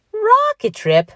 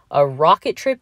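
First: Very high, loud, scoffing question; incredulous echo. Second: Said in the usual way. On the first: A narrator's reading. Patrick scoffs at Mickey's rocket plan, incredulous echo. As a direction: repeat it as if it were absurd.

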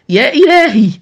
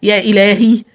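First: High, loud cry of horror; escalating alarm, almost shouted; horrified cry. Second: Louder cry of alarm; first shocked gasp of words, raised volume; horrified. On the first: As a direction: cry out aghast, pitch and volume leaping. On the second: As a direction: exclaim in horror, still holding some back. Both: A narrator's reading. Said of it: "في ارتياع مرددة".

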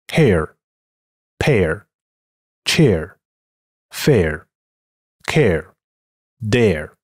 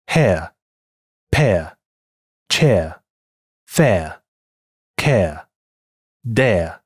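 First: American hair, pear, chair ending in a curled r; American English. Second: British hair, pear, chair without the r; crisp British air, no curl at the end; British English. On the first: Teacher reads the same words in American English. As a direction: add the American r-colouring to each air. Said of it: "美音". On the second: Teacher reads the words in British English. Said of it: "英音". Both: Shown as a demonstration.

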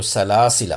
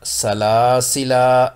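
First: सलासिला with a short final a, no drawn alif; joined form, no alif. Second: सलासिला said slowly, final alif drawn out long; pausal form with alif. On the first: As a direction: clip सलासिला short as if running on. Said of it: "अगर मिलाकर पढ़ेंगे तो". (सलासिला छोटा, आखिरी अलिफ बिना) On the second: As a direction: stretch the last अलिफ of सलासिला, x0.4 pace. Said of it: "अगर वक्फ करेंगे तो ये अलिफ पढ़ा जाएगा". (सलासिला धीमे, आखिरी अलिफ लंबा खींचकर) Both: Shown as a demonstration.

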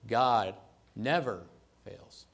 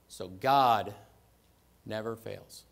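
First: Never drawn out, loud and slow; stress on never. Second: God punched out much louder; stress on God. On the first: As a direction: lean hard on never, let fails drop. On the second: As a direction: hit the word God hard, then ease off. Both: Shown as a demonstration. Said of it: "Emphasize each word".

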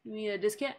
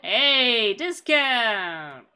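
First: Said in the usual way. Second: Loud call of discount!; hammed-up yell for a discount; mock shout. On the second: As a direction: bellow discount! at the shopkeeper. Calling out to shopkeeper.

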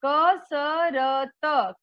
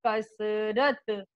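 First: कसरत split slowly into ka-sa-ra-ta; syllable by syllable. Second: Said in the usual way. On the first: Shown as a demonstration. Teacher to children, sounding out कसरत slowly. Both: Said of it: "शुद्ध उच्चारण के साथ हम बार बार दोहरा".

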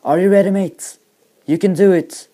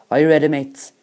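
First: High, loud hype-up shout; roared English, pushing him on; roaring. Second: Moderately raised voice, checking in; louder English question to a mate; Australian instructor. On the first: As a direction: bellow encouragement to a jumper. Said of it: "hører australieren brøle". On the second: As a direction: call lightly to a nervous jumper. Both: A narrator's reading.

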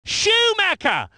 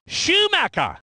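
First: Surname pitched high, falling at the end; excited name call. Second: Said in the usual way. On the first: Acted. Commentator naming Schumacher, high excited call.

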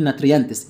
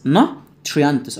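First: "ناتريانتس" with a plain separate t and r; quick "nat-ri-yantes", no "chr" blend in "ناتريانتس"; mispronounced nutrients. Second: Said in the usual way. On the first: Shown as a demonstration. Teacher warning students, "ناتريانتس" wrongly said with unblended t-r. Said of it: "اوعى تقول". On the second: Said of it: "اوعى تقول ناتريانتس".

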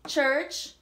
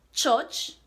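First: Said in the usual way. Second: Church said as chotch, rounded o vowel and no r; patois church. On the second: Shown as a demonstration. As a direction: give church the Jamaican chotch sound. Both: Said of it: "the singulars for English and for Jamaican patois".

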